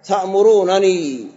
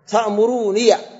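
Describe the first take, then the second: First: The two n sounds are pronounced separately. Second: Only one short n sound is pronounced. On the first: "وقراءة كرفكنا" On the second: "وقراءة حذفك"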